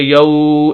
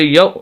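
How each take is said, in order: First: The vowel sound is stretched out long. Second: The vowel sound is cut off abruptly. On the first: "ऐसे हरूफ को ना खींचा जाता है" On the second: "झटका भी नहीं देंगे"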